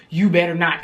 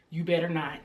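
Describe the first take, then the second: First: Firm warning at normal volume; retold firm warning, spoken up. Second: Low, hushed warning; quiet, low threat, retold. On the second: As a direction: say it under your breath as a warning. Retold warning to laughing boyfriend.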